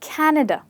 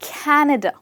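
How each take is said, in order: No difference in how they are said.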